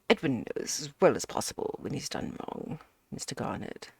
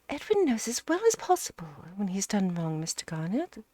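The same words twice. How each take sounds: First: It is read in another character's voice. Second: It is read in Mrs Ukridge's voice.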